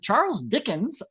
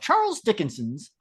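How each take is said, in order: First: The name ends without an extra syllable. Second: The name ends with an extra added syllable. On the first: "I'll pronounce it the other way" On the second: "you sound like you're saying Dickinson's"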